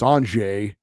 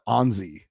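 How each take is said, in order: First: The middle consonant is a soft j sound. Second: The middle consonant is a buzzing z sound. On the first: The speaker calls it right. "We all know it's Anjay" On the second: The speaker calls it wrong. "not Anzi or Anzi, which uh, kind of drives me crazy"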